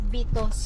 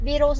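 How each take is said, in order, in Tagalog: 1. Ang pangalan ay binibigkas nang may Pilipinong aksento. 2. Ang pangalan ay binibigkas nang may Amerikanong aksento. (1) "Very Filipino talaga ako" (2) "Viros daw"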